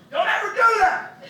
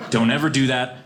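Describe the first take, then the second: First: Very high, slow furious yell; shouted warning. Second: Said in the usual way. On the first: Real, not acted. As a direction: scream the rule at them.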